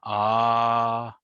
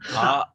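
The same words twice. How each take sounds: First: The vowel is held long and full. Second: The vowel is cut short abruptly. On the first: The speaker calls it wrong. "Instead of going ah" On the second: The speaker calls it right. "you're also cutting the A in half"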